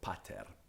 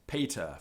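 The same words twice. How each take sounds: First: It is said with a restored classical Latin pronunciation. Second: It is said with a traditional English pronunciation.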